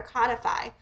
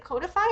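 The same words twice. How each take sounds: First: "codify" with a short open o, like "cod"; pronunciation check. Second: "codify" with a long o, like "code"; pronunciation check. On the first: Reader unsure how codify is said, trying "codify" with a short open o. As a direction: say "codify" as KAH-dih-fy. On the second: Reader unsure how codify is said, trying "codify" with a long o. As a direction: say "codify" as COE-dih-fy. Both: Shown as a demonstration. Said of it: "is it codify or codify?".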